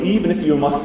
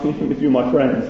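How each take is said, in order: First: Said in the usual way. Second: Laughing at his own grumpiness; a quick chuckle through the words. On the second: Real, not acted. Preacher laughs at how annoyed he would be, laughing. Repeats the phrase, then laughs.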